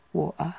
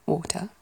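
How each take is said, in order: First: "water" with the t dropped to a glottal stop; variant pronunciation. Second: "water" with a clear t and no final r; variant pronunciation. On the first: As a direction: say "water" as WAW-uh. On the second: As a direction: say "water" as WAW-tuh. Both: Shown as a demonstration. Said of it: "different ways I can imagine water".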